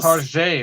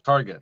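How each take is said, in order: First: The ending is said as a French-style 'zhay'. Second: The ending is said as a plain 'get'. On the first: It sounds fancier. "It's a little fancier" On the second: It is the ordinary form. "instead of Target"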